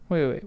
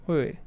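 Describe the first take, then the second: The two takes are said the same way.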